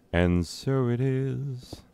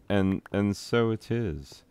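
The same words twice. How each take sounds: First: Higher, slow ceremonial pronouncement; solemn intoning. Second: Said in the usual way. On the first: Acted. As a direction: proclaim it like a ritual decree. Repeats phrase solemnly.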